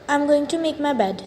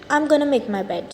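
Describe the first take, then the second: First: 'Going to' is said fully, both words clear. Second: 'Going to' is reduced to a quick 'gonna'.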